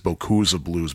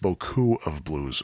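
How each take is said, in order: First: The s of beaucoup is pronounced and linked. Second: The s of beaucoup is silent. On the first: "because the S is followed by a vowel" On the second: "my French teacher would say it's"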